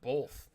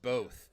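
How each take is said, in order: First: The word is said with an extra sound added. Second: The word is said plainly, nothing added. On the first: The speaker calls it wrong. "people who add random letters" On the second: The speaker calls it right. "B O T H is pronounced both"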